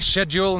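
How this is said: It is said with a British pronunciation.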